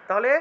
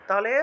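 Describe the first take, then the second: No difference in how they are said.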